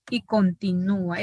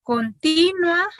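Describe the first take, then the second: First: Continúa with the stress on ú, split from the a, con-ti-nú-a; hiatus demo. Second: Continua said slowly with the ua glided together, con-ti-nwa; diphthong demo. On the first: Teacher contrasting continúa with continua for students. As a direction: give continúa four syllables, leaning on the ú. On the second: Teacher slowly modelling continua against continúa. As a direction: draw out continua with the u gliding into a, stress on ti. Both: Shown as a demonstration. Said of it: "Esta es continua lo que estoy haciendo".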